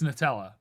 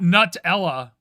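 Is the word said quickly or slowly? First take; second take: quickly; slowly. First: It is said quickly and run together. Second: It is said slowly, starting like 'new'. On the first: The speaker calls it right. "I say it very fast" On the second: The speaker calls it wrong. "I'm not saying it like new"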